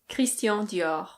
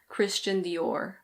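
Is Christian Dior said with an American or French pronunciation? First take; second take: French; American. First: It is said with a French pronunciation. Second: It is said with an American pronunciation.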